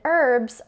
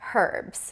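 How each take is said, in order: First: It is said with an American pronunciation. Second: It is said with a British pronunciation.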